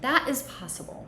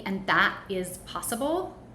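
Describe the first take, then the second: First: It falls at the end, like a statement. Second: It rises at the end, like a question.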